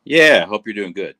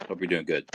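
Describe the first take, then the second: First: Loud. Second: Quiet. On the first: Signing off to streamer. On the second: Soft repeat of farewell. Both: Real, not acted.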